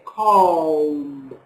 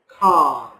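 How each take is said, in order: First: The L sound is pronounced in the word. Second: The L sound is silent in the word. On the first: The speaker calls it wrong. "we never say calm. No" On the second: The speaker calls it right. "No L"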